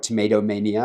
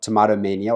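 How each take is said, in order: First: Tomato is pronounced the American way. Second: Tomato is pronounced the non-American way. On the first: "I guess, because it's in America" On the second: "I try to get both pronunciations"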